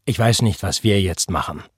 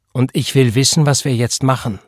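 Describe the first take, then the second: First: Considered, restrained statement; deliberate. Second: Higher, louder, pressing; forceful and impatient; insistent demand. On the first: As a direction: answer cautiously, letting it sink at the end. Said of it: "sagte er bedächtig". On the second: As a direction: demand an answer, pushing each word. Pregnant woman demands an answer. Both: A narrator's reading.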